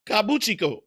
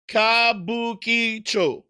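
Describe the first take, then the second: First: Kabuchiko said fast, chi and ko swapped; mangled name. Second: Kabukicho said slowly, syllable by syllable, ka-bu-ki-cho; slow careful Kabukicho. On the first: Trying the Tokyo district name, he slips into Kabuchiko. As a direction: rush Kabuchiko and trip on the middle. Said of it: "I always fuck up with that one". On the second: Viewer asks about the district, he sounds out Kabukicho slowly. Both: Shown as a demonstration.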